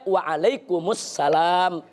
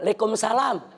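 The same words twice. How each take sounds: First: It is said in full standard Arabic form. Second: It is said in a clipped local Betawi style. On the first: The speaker calls it right. "jawabnya ... Itu yang betul" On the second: The speaker calls it wrong. "apa yang dilakukan oleh masyarakat Betawi"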